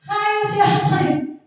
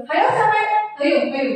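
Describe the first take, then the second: First: High, slow scolding "Hayo siapa ini?"; a teacher catching a noisy pupil, high and sharp. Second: Scolding a noisy class, raised voice; high scolding voice. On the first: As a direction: scold the class in a raised pitch. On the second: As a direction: call out the culprit, voice up high. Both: Shown as a demonstration. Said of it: "nada suara tinggi".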